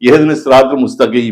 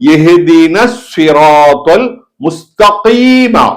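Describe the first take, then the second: First: The q sound is an ordinary front k. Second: The q sound comes from deep in the throat. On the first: The speaker calls it wrong. "அத காஃப் உச்சரிக்காம" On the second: The speaker calls it right. "காஃப் அங்கிருந்து உள்ள இருந்து வரணும்"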